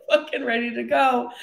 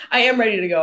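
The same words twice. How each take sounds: First: Higher, said through a laugh; giggly, raised "ready to go"; laughing claim. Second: "am" punched louder, insisting; firm, louder emphasis on "am"; stress on AM. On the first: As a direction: push "ready to go" out while giggling. Laughing through mock claim, then restated. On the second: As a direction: lean hard on "am" to affirm it. Corrects herself, insisting she is ready. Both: Real, not acted.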